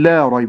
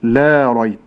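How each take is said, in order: First: The vowel of 'la' is cut short. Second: The vowel of 'la' is fully lengthened. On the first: It turns into an affirmation rather than a negation. The speaker calls it wrong. "لا أقول لا ريب" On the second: It denies that there is any doubt. The speaker calls it right. "ولكن أقول لا ريب"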